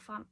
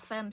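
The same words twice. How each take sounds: First: The word is pronounced the French way. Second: The word is pronounced the English way. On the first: The speaker calls it wrong. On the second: The speaker calls it right.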